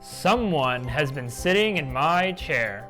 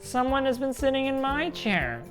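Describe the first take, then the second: First: It is said in a great big voice. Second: It is said in a wee small voice.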